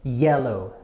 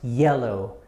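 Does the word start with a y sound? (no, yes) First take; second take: yes; yes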